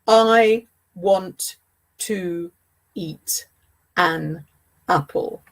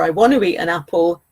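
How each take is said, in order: First: Each word is said separately without linking sounds. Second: The words run together with an extra linking sound. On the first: The speaker calls it wrong. "Nobody says that" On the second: The speaker calls it right. "is perfect spoken English"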